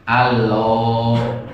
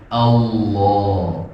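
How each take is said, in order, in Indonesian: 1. L-nya ringan dan tipis. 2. L-nya gelap dan tebal. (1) "lam tipis ... nggak melebar" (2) "lamnya itu ditebalkan"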